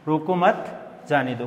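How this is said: The pause comes right after मत.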